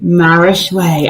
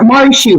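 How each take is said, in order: First: The name ends with a 'shway' sound. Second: The name ends with a 'shoo' sound. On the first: The speaker calls it right. "I will not mispronounce it" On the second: The speaker calls it wrong. "I'm saying it right"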